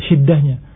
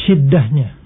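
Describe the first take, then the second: The two takes are said the same way.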